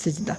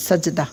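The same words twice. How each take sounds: First: "সিজদা" with an i after the s; Bengali-style sijda. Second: "সাজদাহ" with an a after the s; sajdah with zabar. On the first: Teacher recalling the Bengali reading, "সিজদা" said with si. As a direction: say "সিজদা" opening on si, not sa. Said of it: "আমরা বাংলাতে কিন্তু সিজদা পড়ি". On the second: Teacher spelling out seen with zabar, "সাজদাহ" read with sa. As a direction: say "সাজদাহ" opening on sa, not si. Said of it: "সিনে জবর". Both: Shown as a demonstration.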